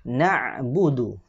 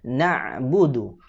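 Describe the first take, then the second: No difference in how they are said.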